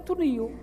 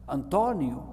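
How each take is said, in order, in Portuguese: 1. A sílaba 'to' não é tónica. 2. A sílaba tónica é 'to'. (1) "tirando o acento é Antonio" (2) "tem o acento sobre o O"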